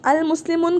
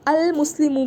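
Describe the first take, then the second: First: The word ends with a final n sound. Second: The word ends on a vowel, no n. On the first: The speaker calls it wrong. "अल मुस्लिमुन गलत है" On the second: The speaker calls it right. "अल मुस्लिमू कहूँगी मैं"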